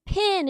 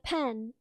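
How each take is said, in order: First: "pin" with a short i; local pin. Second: "pen" with an open e; standard pen. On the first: Explaining how locals say pen, "pin" with short i. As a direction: say "pin" for pen, rhyming with tin. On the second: Explaining the word locals change, "pen" with open e. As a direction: say "pen" to rhyme with ten. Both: Shown as a demonstration. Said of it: "pin instead of pen".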